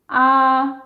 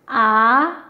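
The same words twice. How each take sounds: First: The pitch stays high and level. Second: The pitch rises from middle to high. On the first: "le premier ton, c'est un ton haut aigu. Donc, il est haut et plat" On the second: "le deuxième ton, qui part du milieu et qui monte vers le haut"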